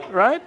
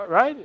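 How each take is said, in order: Both takes have the same delivery.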